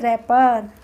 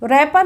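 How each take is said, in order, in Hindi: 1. शब्द सीधे R की आवाज़ से शुरू होता है। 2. R से पहले W की आवाज़ सुनाई देती है। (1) "क्या बोलेंगे, रैपर" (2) "रैपर नहीं बोलेंगे"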